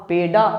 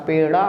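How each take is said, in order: First: पेडा with a full, hard retroflex stop ड; पेडा, ड not softened into a flap. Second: पेड़ा with ड at half strength; पेड़ा, a quick retroflex flick; softened ड़. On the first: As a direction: stop the tongue fully on ड in पेडा. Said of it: "गलत है". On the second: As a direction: flap ड़ lightly in पेड़ा. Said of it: "डॉ को आधा करना है". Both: Shown as a demonstration.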